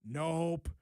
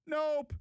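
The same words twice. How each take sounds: First: Said in the usual way. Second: Nope jumped up high and emphatic; high mocking nope. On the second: Shown as a demonstration. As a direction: throw the second nope up high.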